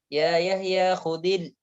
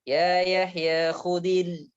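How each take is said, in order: The two takes are said the same way.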